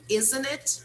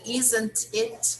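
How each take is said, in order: First: The T is dropped, linking N into it. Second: The final T of isn't is clearly pronounced. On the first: The speaker calls it right. "we do not pronounce... we link the letter N um, to the letter I" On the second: The speaker calls it wrong. "instead of saying isn't it"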